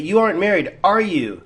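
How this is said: The voice falls at the end.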